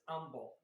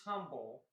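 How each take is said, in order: First: The word begins without an H sound. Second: The word begins with an H sound. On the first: "Texans pronounce it as umble. They don't say the letter H" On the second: "the word is humble"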